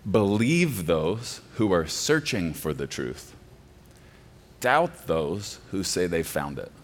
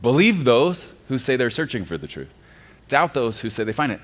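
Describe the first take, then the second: First: Quoted slowly, each word weighed; slow slogan quote. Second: Said in the usual way. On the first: Shown as a demonstration. Pastor quoting the deconstructionists' phrase, slow and deliberate. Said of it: "repeated plainly after". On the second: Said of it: "slow take before".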